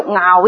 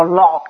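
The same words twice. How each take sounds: First: 樂 pronounced "ngaau"; the character 樂 read as ngaau; ngaau for fondness. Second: 樂 pronounced "lok"; the character 樂 read as lok; lok for happiness. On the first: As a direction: say 樂 like ngaau, not lok. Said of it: "如果你讀樂呢個音呢". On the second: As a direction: say 樂 like lok, not ngaau. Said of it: "就應該讀個樂字". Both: Shown as a demonstration.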